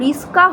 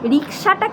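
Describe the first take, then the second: First: The s sound comes before the k sound. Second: The k sound comes before the s sound.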